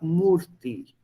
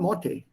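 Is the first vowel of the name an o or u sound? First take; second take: u; o. First: The name starts with an u sound. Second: The name starts with an o sound. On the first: The speaker calls it right. "U mit den" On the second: The speaker calls it wrong. "Next time you mispronounce my name"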